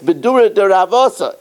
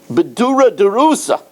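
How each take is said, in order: First: The last word is said as 'Ravosa'. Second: The last word is said as 'Rusa'. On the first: The speaker calls it right. "So it's Bedura de Ravosa" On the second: The speaker calls it wrong. "mistakenly, I pronounced it Bedura de Rusa"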